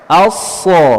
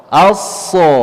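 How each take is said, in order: Both takes have the same delivery.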